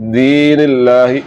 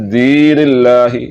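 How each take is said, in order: First: The first vowel is long. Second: The first vowel is long.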